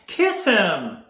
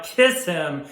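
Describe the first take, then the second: First: High, loud, falling cry; urgent cry. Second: Loud, falling command; urgent urging. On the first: Onlooker begs Irma to kiss him, crying out. Urging Irma again, escalating. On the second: Onlooker urges Irma to kiss him, urgent. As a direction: urge it firmly and loudly. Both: Acted.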